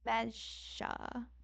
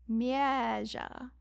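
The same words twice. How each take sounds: First: The first vowel is short. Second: The first vowel is drawn out long.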